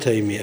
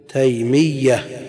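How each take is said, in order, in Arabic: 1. صوت الياء مفرد وقصير. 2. صوت الياء مشدد، ممدود طويلاً. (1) "ما نقول تيمية كما يقول بعض الناس" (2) "بالتشديد"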